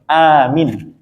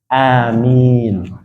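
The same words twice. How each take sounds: First: The first vowel is long, the second short. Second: Both the first and second vowels are long. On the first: Make it safe. The speaker calls it wrong. "a-nya dipanjangkan, mi-nya pendek" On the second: Lord, accept our prayer. The speaker calls it right. "a-nya dipanjangkan, mi-nya juga dipanjangkan"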